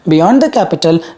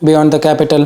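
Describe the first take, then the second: First: The pitch moves up and down expressively. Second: The pitch stays level like a straight line. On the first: The speaker calls it wrong. "This is not the right way to do it" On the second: The speaker calls it right. "This is the tone"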